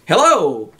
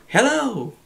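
First: Calling out across a canyon; shouted call. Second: Hello coming back as an echo; echo reply. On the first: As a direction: call out the first hello. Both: Shown as a demonstration. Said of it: "In other words".

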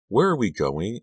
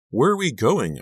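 First: Higher-pitched, slightly breathless question; understated breathless questioning; lightly acted breathlessness. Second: High, louder, pressing question; acted insistence, pitched well up; insistent repeated question. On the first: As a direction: ask as if a touch winded. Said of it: "I asked breathlessly". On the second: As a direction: press for the answer you didn't get. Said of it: "I repeated my question". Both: A narrator's reading.

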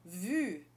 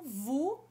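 First: "vu" with front rounded u, lips pursed; "vu" with the French u. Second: "vous" with back rounded "oo"; "vous" with the ou sound; French ou. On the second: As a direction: say "vous" like "voo". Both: Shown as a demonstration. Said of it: "por exemplo".

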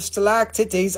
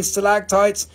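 First: Stalactites said as "stalac-titties"; jokey mispronunciation. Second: Said in the usual way. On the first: Shown as a demonstration. Joking about the rock group, stalactites mispronounced as "stalac-titties". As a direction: say stalactites jokily, ending in "titties". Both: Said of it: "I mean, stalactites".

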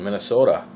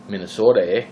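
First: Said in the usual way. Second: A touch of Minnesota accent on "Minnesota, eh?", long open O and rising "eh". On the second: Shown as a demonstration. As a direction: slip into a light Minnesota accent for "Minnesota, eh?". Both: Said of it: "the accent came out there for a second".

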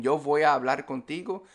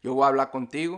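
First: Said in the usual way. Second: "voy a hablar" squeezed into "wa blá"; merged Caribbean pronunciation. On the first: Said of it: "sounds much different than". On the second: Shown as a demonstration. Teacher contrasting with standard Spanish, words merged. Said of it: "in Caribbean Spanish".

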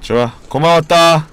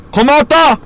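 First: Said in the usual way. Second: High bright goodbye shout; playful farewell. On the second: Pretend. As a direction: call it out high and loud. Farewell to dropped item. (높게 외치는 작별)

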